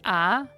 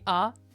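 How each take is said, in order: First: The vowel is held long. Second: The vowel is cut short. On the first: "the double A is A" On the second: "the single A would be A"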